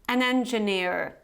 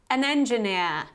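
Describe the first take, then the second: First: The final r sound is pronounced. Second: The final r sound is silent. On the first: "in the American variety ... you actually pronounce this R at the end" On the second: "in the British variety"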